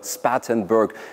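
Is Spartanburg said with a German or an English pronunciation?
English. The name is pronounced the English way. The speaker calls it right.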